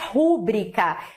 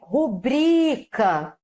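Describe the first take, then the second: First: The stress falls on the first syllable. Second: The stress falls on the second syllable. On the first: The speaker calls it wrong. "Recorde não é rúbrica" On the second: The speaker calls it right. "é rubrica"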